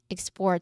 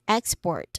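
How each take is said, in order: First: The stress is on the second syllable. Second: The stress is on the first syllable. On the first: The act of sending goods out. "a verb form of the word" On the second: A product sent to another country. "first syllable being the stressed syllable"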